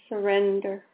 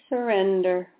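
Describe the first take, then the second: Both takes have the same delivery.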